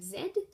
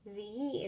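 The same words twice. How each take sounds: First: The letter is pronounced zed, British style. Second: The letter is pronounced zee, American style. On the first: This is the form the class aims for. The speaker calls it right. "instead of Z" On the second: This is the American way, not the target. The speaker calls it wrong. "as they say Z in most of the alphabet songs"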